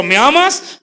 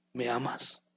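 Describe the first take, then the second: First: Higher, louder insistent asking; Jesus pressing Peter; pressing question. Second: Hushed, tender asking; the Lord asking gently, in a hushed voice; soft question. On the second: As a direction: ask it softly, almost to yourself. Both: Acted.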